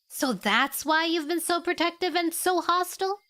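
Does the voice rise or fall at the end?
rise. The voice rises at the end, like a question.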